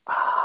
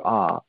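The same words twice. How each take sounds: First: Long exhaled whisper on ah. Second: Said in the usual way. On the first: Shown as a demonstration. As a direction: let a big breath out as a whispered ah. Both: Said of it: "and then whisper".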